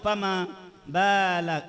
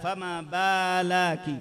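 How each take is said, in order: No difference in how they are said.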